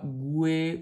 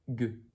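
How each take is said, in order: First: A 'w' sound is heard after the g. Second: No 'w' sound is heard after the g. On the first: The speaker calls it wrong. "On n'y dit pas goué" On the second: The speaker calls it right. "mais juste gue. ... le U ne se dit pas"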